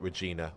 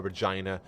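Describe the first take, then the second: First: Regina as "reh-JEE-nah"; long EE in Regina. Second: Regina as "reh-JYE-nah"; long I in Regina; Regina with "eye". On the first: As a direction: say the middle of Regina like "jean". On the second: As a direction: say the middle of Regina to rhyme with "shine". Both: Shown as a demonstration. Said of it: "however people are saying it".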